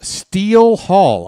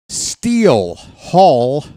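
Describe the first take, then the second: First: "Steele Hall" slow, loud, falling; drawn-out announcer name. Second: "Steele Hall" very slow, rising; slow drawn-out name. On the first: Reads the draft pick name. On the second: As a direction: drag out "Steele Hall" with a rise. Repeats the pick name. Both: Shown as a demonstration.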